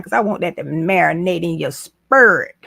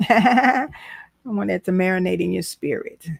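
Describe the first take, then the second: First: Said in the usual way. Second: Each word given weight so it sinks in; slower emphatic repeat. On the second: Shown as a demonstration. Repeating the line to her TikTok viewers, slow and emphatic. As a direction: let it marinate, lean on every word. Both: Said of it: "Let me put it back up there one more time".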